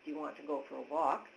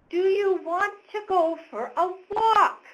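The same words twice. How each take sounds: First: It is said at normal pitch and volume. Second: It is said at higher pitch, almost yelling. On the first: The speaker is addressing an adult. The speaker calls it right. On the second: The speaker sounds like they are addressing a small child. The speaker calls it wrong. "it's a higher pitch. It sounds like I'm talking to a little kid. I'm almost yelling"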